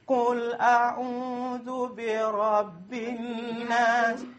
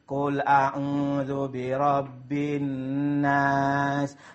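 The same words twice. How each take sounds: First: The voice is trembling. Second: The voice is off-key. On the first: "Itu suara yang keta-keta"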